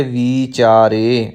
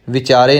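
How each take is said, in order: First: ਵਿਚਾਰੇ slowly, with a long "vee"; long first vowel. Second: ਵਿਚਾਰੇ with a short clipped "vi"; short first vowel. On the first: Teacher modelling for learners, ਵਿਚਾਰੇ with long "vee". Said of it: "ਇੱਥੇ ਬਿਹਾਰੀ ਲੱਗੀ ਹੋਈ ਹੈ". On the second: Teacher showing learners the mistake, ਵਿਚਾਰੇ with short "vi". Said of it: "ਵਾਵੇ ਨੂੰ ਸਿਹਾਰੀ ਲੱਗੇਗੀ". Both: Shown as a demonstration.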